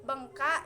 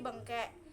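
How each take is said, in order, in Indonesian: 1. Suku kata terakhir memiliki vokal A. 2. Suku kata terakhir memiliki vokal E. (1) "perubahan vokal A yang menjadi vokal E" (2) "berubah menjadi bengkek"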